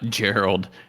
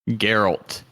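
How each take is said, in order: First: The name ends with a d sound. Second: The name ends with a t sound. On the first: The speaker calls it wrong. "Not Gerald" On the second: The speaker calls it right. "Geralt is what he says"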